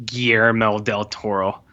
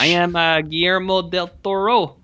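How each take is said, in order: First: Said in the usual way. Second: Higher, hammy French Canadian accent; a director introduced in a jokey French Canadian accent; mock French Canadian accent. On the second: Shown as a demonstration. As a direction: announce yourself in a put-on French Canadian accent. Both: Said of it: "so I'm gonna do French Canadian".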